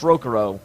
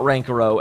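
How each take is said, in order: First: The first syllable is a plain 'ro'. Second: The first syllable has an added 'n'. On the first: The speaker calls it right. "yes, it's Rokuro" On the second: The speaker calls it wrong. "It's not Rankuro"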